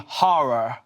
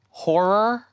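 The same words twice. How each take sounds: First: The first syllable does not sound like 'whore'. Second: The first syllable sounds like the word 'whore'. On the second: "instead of saying horror"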